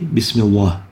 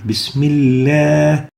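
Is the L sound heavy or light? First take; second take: heavy; light. First: The L sound is thick and heavy. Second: The L sound is thin and light. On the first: The speaker calls it wrong. "We don't say Bismillah" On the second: The speaker calls it right. "The proper way is to pronounce it with tarqiq"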